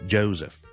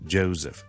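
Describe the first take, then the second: The two takes are said the same way.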